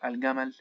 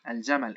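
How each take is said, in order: First: It is said in Egyptian dialect pronunciation. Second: It is said in Modern Standard Arabic pronunciation. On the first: "as pronounced in the Egyptian dialect" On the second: "in modern standard Arabic as well as الفصحى dialect"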